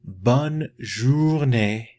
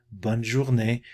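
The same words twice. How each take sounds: First: "bonne journée" at half speed, each syllable clear; teacher modelling the phrase slowly for students; slow demo take. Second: Said in the usual way. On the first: Shown as a demonstration. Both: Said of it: "if you like to say".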